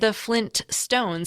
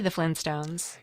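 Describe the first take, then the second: First: The t in Flint is clearly pronounced. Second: The t in Flint is dropped. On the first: The speaker calls it wrong. "it sounded odd" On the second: The speaker calls it right. "We say the Flintstones"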